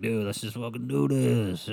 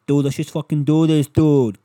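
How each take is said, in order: First: Slow, drawn-out sailor impression; rough sailor voice. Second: Loud, higher-pitched Boston caricature; mock Boston accent. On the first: Imitating the girl propositioning his buddy, mock sailor voice. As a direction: play her as a drawling sailor. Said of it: "sounds like the fucking sailor". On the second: Imitating the girl propositioning his buddy, loud Boston accent. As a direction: belt it out like a brash Bostonian. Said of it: "why she's from Boston now".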